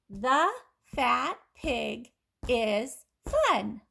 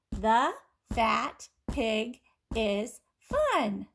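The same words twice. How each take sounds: First: Very slow, each word stretched; slow model sentence. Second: Very slow, words drawn out together; slow choral reading. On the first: Teacher reads the sentence slowly to listening kids. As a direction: read it slowly so they can just listen. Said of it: "Just listen". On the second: Teacher reads along slowly with the class. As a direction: lead the class through it slowly. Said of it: "Now say it with me". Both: Shown as a demonstration.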